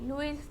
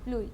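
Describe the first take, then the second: First: The name ends with an s sound. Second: The name ends without an s sound. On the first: The speaker calls it wrong. "लुइस नहीं" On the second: The speaker calls it right.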